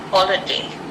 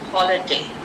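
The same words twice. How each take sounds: First: The stress is on the first syllable. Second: The stress is on the first syllable.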